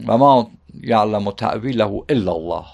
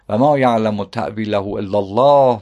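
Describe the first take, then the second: First: The reading comes to a full stop after illallah. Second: The reading runs straight on past illallah. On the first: Only God knows its interpretation. "ما مجبور باشیم اینطوری بخونیم ... نقطه، بیا سر خط" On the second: Those firm in knowledge also know its interpretation. "خیلی دست و پا میزنن اینطوری بخونن"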